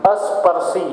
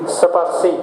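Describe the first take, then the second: First: An extra a vowel comes before the s. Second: The word starts directly with the s sound. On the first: The speaker calls it wrong. "अस्पर्शी ये बोलना बिल्कुल बेकार है, गलत तरीका है" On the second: The speaker calls it right. "स्पर्शी बोलना चाहिए"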